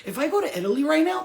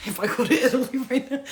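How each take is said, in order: First: Said in the usual way. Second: Repeated through a laugh; laughing as she restarts; giggling restart. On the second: Real, not acted. Repeats line laughing, louder.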